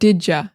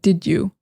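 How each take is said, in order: First: The second word is reduced to a short 'ya'. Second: The second word is a full, clear 'you'. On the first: "we're also saying did ya" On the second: "instead of did you"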